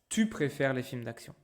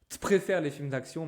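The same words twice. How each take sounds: First: The word 'tu' is said in full. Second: The word 'tu' is shortened. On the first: The speaker calls it right. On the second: The speaker calls it wrong.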